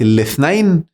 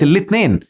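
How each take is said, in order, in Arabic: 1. تُحذف الحركة الأولى لكن يبقى صوت th. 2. فيها صوت t وحركة e بسيطة. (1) "كلنا الألف بقت الاثنين" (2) "وحتى الياء بقت هين، فبقت الاثنين"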